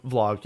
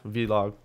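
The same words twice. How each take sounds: First: Said in the usual way. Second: Vlog said in two beats, "vee-log". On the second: Shown as a demonstration. Co-hosts toying with the term, Vlog pronounced "vee-log".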